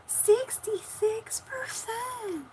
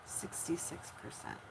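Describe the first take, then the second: First: Very high, slow, drawn-out movie imitation; Lady and the Tramp imitation. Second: Said in the usual way. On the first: Streamer checking the battery, high drawn-out movie imitation. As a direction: stretch it out in a high put-on cartoon voice. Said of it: "That's from Lady and the Tramp".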